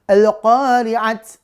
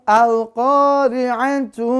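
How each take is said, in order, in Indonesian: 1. Kata ini berakhir dengan bunyi t yang terpotong. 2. Kata ini berakhir dengan bunyi tu yang penuh. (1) "mana ada Al-Qari'at ya? ... Salah" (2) "Kalau dibaca misalnya disambung"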